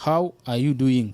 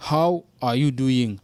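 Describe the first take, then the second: First: Said in the usual way. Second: Slow repeat. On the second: Shown as a demonstration.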